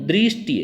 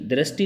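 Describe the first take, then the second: First: The consonant is followed by an 'ri' sound. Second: The consonant is followed by a plain r sound. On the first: The speaker calls it right. "री बोलिए" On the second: The speaker calls it wrong. "दृष्टि नहीं है"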